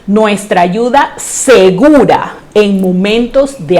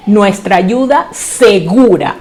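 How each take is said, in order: First: Said in the usual way. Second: Ayuda segura slow and weighted, each word set apart; emphasis on ayuda segura. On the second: Shown as a demonstration. Preacher stressing to the congregation that God's help is sure, slow and weighted. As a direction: lean on ayuda segura, stretching the end of segura. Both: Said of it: "Hay que enfatizar esa palabra".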